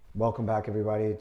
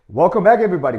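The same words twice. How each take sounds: First: It is said flatly with little energy. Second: It is said with lively, confident energy. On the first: The speaker is not engaged or in control. The speaker calls it wrong. "my tonality is it's, it's gone" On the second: The speaker is engaged and in control. The speaker calls it right. "my tone of voice, my tonality, my body language starts to change"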